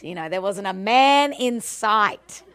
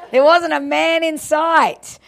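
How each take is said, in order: First: Said in the usual way. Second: Higher, louder, laughing through it; laughing repeat. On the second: Real, not acted. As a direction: land the joke with a laugh.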